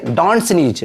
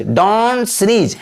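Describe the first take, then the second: First: Said in the usual way. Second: DON'T drawn out long, then sneeze; slow model phrase. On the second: Shown as a demonstration. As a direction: stretch out "don't sneeze" at half speed for learners. Teacher repeats phrase slowly for learners.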